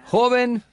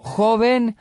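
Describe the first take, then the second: First: "joven" repeated high and raised; Fuller scolding again. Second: High, raised call of "Joven"; Fuller scolding the young man. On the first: Fuller pressing the young man in public, high call. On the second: Elder rebuking a young man before the crowd, raised high. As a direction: call out "Joven" sharply, much higher. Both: Retold or imitated.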